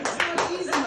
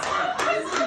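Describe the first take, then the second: First: Said in the usual way. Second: High, laughing "not easy". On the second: Real, not acted. Laughing repeat of phrase.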